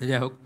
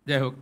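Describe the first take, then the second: Both takes have the same delivery.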